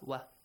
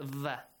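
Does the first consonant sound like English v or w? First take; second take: w; v. First: It begins with a rounded w sound. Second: It begins with a buzzing v sound. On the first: The speaker calls it right. "Waw must be pronounced like wa" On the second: The speaker calls it wrong. "not va, like V in English"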